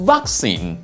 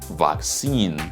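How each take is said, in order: First: It is said in a British pronunciation. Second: It is said in an American pronunciation. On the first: "B B C" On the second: "In G A, we can say vaccine"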